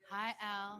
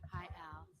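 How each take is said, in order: First: It is said loudly. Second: It is said quietly.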